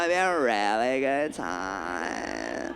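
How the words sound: The voice sounds tight and squeezed.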